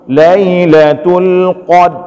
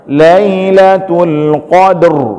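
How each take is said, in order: First: The final r sound is left out. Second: The final r is a brief vibration. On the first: The speaker calls it wrong. "Punya cuma ada pedang bah huruf dal, nggak akan keluar dia" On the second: The speaker calls it right. "yang kita baca itu getarannya saja"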